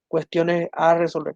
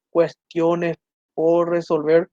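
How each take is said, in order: First: Said in the usual way. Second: "por" drawn out and rising, the whole phrase slowed right down; very slow, stressing por. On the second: Shown as a demonstration. Teacher correcting the class, very slow with por rising. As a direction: spell it out slowly, lifting por. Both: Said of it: "tiene que ser".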